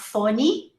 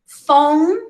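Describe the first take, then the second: First: It ends with an added vowel sound. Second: It ends on the final n consonant. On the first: The speaker calls it wrong. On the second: The speaker calls it right.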